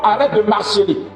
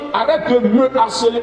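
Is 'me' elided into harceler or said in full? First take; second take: elided; full. First: Me is elided and linked into marceler. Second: Me is said in full before harceler. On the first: The speaker calls it wrong. "et non" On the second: The speaker calls it right. "on doit forcément dire"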